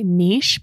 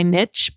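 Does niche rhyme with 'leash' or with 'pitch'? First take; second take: leash; pitch. First: The word sounds like 'neesh', rhyming with leash. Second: The word sounds like 'nitch', rhyming with pitch. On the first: This is the French-style pronunciation. "You're going to hear me say niche because I am French Canadian" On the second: This is the other accepted English pronunciation. "apologies in advance to my niche people"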